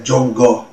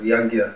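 First: The word begins with a 'j' sound. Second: The word begins with a 'y' sound. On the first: This is the Bengali way of saying the word. "They'll say Jongo instead of Yagya" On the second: This is the Sanskrit way of saying the word. "instead of Yagya"

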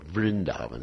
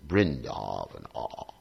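First: It begins with a V sound. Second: It begins with a B sound, Bengali style.

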